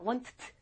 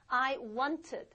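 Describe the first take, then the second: First: The ending is added with no extra syllable. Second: The ending is said as an extra syllable. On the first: The speaker calls it wrong. "이상하죠?" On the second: The speaker calls it right. "ed 이렇게 읽어줍니다"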